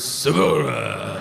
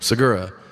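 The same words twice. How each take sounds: First: The name is said with a Japanese-sounding accent. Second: The name is said in his normal way.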